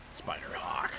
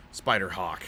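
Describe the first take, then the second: First: Spider-Hawk whispered, much softer. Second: Said in the usual way. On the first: Shown as a demonstration. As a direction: breathe Spider-Hawk as a secret.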